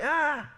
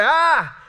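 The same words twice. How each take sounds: First: High little mock cry-out; imitated baby cry. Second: High, loud mock toddler cry; louder imitated baby cry. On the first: Uncle imitating his one-year-old nephew suddenly crying out, high mock cry. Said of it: "suddenly, he cries out". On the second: Uncle imitating his upset little nephew crying out louder, high loud mock cry. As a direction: belt out a cranky baby's "ah". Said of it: "he cries out a little louder".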